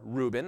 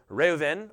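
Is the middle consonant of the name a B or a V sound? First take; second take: B; V. First: The middle consonant is a B sound. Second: The middle consonant is a V sound. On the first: This is the modern English pronunciation. "or Reuben as we'd say it" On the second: This is the original ancient pronunciation. "this would have been pronounced Reuven. The B would be a V sound"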